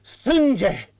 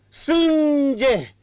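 First: Loud, high cry of Sânge; betrayed husband crying out Sânge; muffled cry. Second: Louder, higher, drawn-out Sânge; husband crying out Sânge louder; stronger cry. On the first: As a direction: cry out Sânge in rising horror. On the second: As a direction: push Sânge to its peak. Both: A narrator's reading. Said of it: "strigă cu voce surdă".

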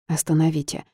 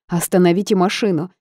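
First: Said in the usual way. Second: Urgent yell to stop the car; shouting. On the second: A narrator's reading. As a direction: cry out for the driver to stop. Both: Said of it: "закричала я".

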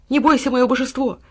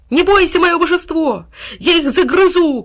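First: Higher, gently encouraging; reassurance. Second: High, rallying cry; loud, ringing loyal promise; bold shout. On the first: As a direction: comfort your wounded master. Dog comforts wounded boy. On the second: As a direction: shout fierce encouragement to your master. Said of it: "крикнул он". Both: A narrator's reading.

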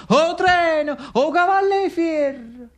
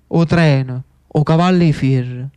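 First: High, slow, ringing crowd cry of "O treno! O cavalli fier!"; cheering crowd. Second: Said in the usual way. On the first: Retold or imitated. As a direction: call it out high like the old crowd, stretching "cavalli". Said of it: "che gridava". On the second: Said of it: "Che belle parole!".

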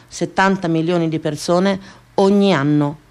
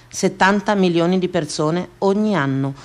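The two takes are said the same way.

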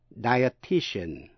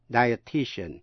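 First: "Dietitian" stretched out slowly, syllable by syllable. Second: Said in the usual way. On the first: Shown as a demonstration. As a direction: spell out "Dietitian" slowly in four even beats. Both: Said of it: "bốn âm tiết".

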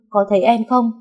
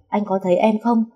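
First: Overjoyed insisting. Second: Eager asking. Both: A narrator's reading. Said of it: "mừng quính quáng lên rồi liên tục hỏi".

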